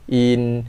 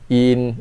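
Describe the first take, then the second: Both takes have the same delivery.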